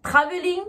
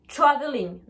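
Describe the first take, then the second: First: TRAVELING with a hard T and French R; French-accented TR. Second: TRAVELING as "chraveling", R barely there. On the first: Teacher contrasting for learners, TRAVELING with French TR. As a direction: sound both T and R in TRAVELING. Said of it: "Vous entendez bien la différence?". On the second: Teacher contrasting for learners, TRAVELING with ch sound. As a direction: turn the T of TRAVELING into ch. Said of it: "je prononce ch". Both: Shown as a demonstration.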